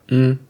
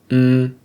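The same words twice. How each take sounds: First: The hum is held very briefly. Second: The hum is held a medium time. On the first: "lengths one"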